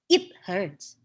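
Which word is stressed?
it. The stress falls on the word it. The speaker calls it wrong. "It will be weird, I guess, like it hurts"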